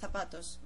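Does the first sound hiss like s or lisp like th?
th. The first sound is a lisped th. This is how it is said in Spain. "If you go to Spain, they say zapatos"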